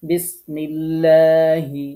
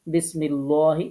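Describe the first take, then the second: First: বিসমিল্লাহি recited slowly with a thin flat লা; correct thin lam. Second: বিসমিল্লাহি with a thick rounded লো, the mistake; wrong heavy lam. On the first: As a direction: chant বিসমিল্লাহি with light unrounded lam. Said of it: "সঠিক হচ্ছে". (সঠিক বারিক লা-তে ধীরে তিলাওয়াত) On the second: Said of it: "তাহলে ভুল". (ভুলভাবে মোটা ল-তে) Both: Shown as a demonstration.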